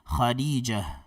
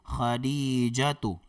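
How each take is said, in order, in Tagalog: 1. Nagtatapos ang pangalan sa mahinang tunog na h. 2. Nagtatapos ang pangalan sa buong pantig na 'tu'. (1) "magiging ha din po ang tunog ng ta'ul marbuta" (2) "Kung lalagyan po natin ng uh, patinig sa dulo"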